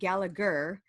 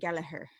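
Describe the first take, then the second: First: The name is said in an American way. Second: The name is said in an Irish way. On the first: This is how the speaker says her own name. "I pronounce my last name Gallagher" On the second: This is how people in Ireland say the name. "they pronounce it Gallagher"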